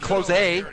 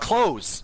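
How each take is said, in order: First: The final e is sounded as a vowel. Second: The final e is silent. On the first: The speaker calls it wrong. "It's not close a" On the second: The speaker calls it right. "The e is silent"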